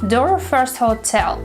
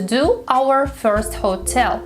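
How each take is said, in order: First: Do and our merge into one word, door. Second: Do and our are said as separate words.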